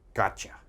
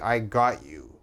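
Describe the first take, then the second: First: The words blur into one reduced word. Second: Three separate words are said in full. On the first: The speaker calls it right. "We just say gotcha" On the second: The speaker calls it wrong. "we don't say I got you"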